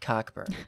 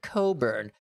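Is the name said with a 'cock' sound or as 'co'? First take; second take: cock; co. First: The first syllable is 'cock', with a k. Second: The first syllable is 'co', without a k. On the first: This matches the spelling. The speaker calls it right. "pronounce it Cockburn" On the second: This is how everyone commonly says it. The speaker calls it wrong. "everyone pronounces it Coburn"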